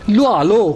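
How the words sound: The phrase is said with strong stress. "उस पर मैं स्ट्रेस करूंगा"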